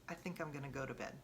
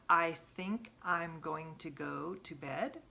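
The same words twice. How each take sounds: First: The words run together as one unit. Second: Each word is said separately and fully. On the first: "Like all one" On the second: "Instead of"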